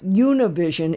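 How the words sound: The name is pronounced with English sounds. The speaker calls it wrong. "It's not ... based on the way that it is spelled"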